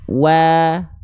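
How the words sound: The vowel sounds thinner, as if smiling. "Sekarang kita buka mulut sambil senyum"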